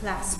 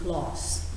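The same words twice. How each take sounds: First: It is said with an American short vowel. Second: It is said with a British long 'ah' vowel. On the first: "اگه کلاس کلاس امریکن بود وان و تو صداشون یکسان بود، کلاس میگفتیم" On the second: "ما تو بریتیشی که میگیم کلاس، درسته؟ صدای آ داره"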